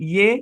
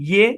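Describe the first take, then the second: No difference in how they are said.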